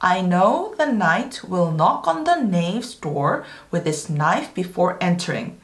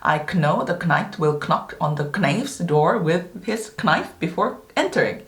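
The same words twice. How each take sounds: First: The initial K sounds are silent. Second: The initial K sounds are pronounced. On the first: This is the modern pronunciation. "현대시대 발음으로 보자면은" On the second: This is the old historical pronunciation. "과거에 이렇게 발음했겠죠"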